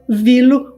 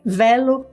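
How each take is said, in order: First: "Vilo" opening on VEE, not VEH; VEE-lo pronunciation. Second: "Velo" opening on VEH, not VEE; VEH-lo pronunciation. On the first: Teacher offering viewers the other option: "Vilo" said VEE-lo. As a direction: say "Vilo" with a long EE, as in veal. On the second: Teacher offering viewers one option: "Velo" said VEH-lo. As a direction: say "Velo" with an open E, as in bell. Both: Shown as a demonstration. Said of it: "whichever way you like to pronounce it".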